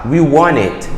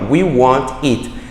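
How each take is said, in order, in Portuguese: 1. As palavras são unidas suavemente em um único fluxo. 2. As palavras são separadas nos sons de t. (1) "Você pode juntar e falar" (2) "Você não precisa fazer essa quebra de T's que a gente tem aí, ó"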